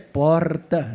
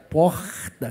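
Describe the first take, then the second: First: It is said in a Paulista accent. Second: It is said in a Carioca accent, pulling the r.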